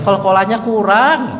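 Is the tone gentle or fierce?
gentle. It is said softly and patiently.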